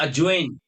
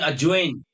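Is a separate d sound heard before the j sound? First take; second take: no; no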